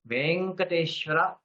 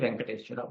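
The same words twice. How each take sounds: First: The first e vowel is long. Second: The first e vowel is short. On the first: This is the proper Sanskrit form. The speaker calls it right. "is the Sadhushabda" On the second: This is the vernacular form. The speaker calls it wrong. "One should not say"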